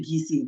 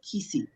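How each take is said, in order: First: The name begins with a G sound. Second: The name begins with a hard K sound. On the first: The speaker calls it right. "We say Gisi. We don't use a K sound" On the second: The speaker calls it wrong. "nobody really says Kisi"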